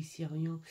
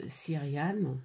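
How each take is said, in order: First: Syrian said the English way, SEER-ee-an; Syrian, English-style; English pronunciation. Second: Syriane said the French way, ending in a clear -ane; Syriane, French-style; French pronunciation. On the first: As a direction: try Syrian as an English word. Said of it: "je sais pas si on dit Syrian ou". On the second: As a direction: try Syriane as a French word, stress on the end. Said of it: "ou, euh". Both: Shown as a demonstration.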